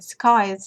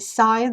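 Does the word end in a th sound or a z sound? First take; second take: z sound; th sound. First: The word is said like 'skies', ending in z. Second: The word is said like 'scythe', ending in th. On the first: The speaker calls it wrong. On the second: The speaker calls it right.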